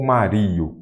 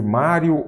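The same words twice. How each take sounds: First: "Mario" stressed on the i, ma-RI-o; stress moved to RI. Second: Said in the usual way. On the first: Shown as a demonstration. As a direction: put the weight on "ri" in "Mario". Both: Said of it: "Mário ou Mario?".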